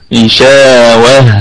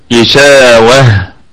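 Both takes have the same delivery.

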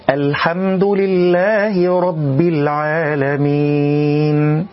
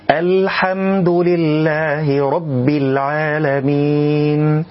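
The two takes are said the same way.

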